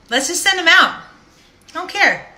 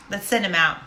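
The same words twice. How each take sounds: First: Higher and louder, throwing caution away; reckless loud. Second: Said in the usual way. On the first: Retold or imitated. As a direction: shout it like you've given up caring. Deciding to send cards anyway.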